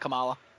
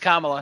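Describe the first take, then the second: First: The first syllable does not sound like comma. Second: The first syllable sounds like the word comma. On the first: The speaker calls it wrong. "not Kamala" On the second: The speaker calls it right. "it's Kamala, ... Like the word comma"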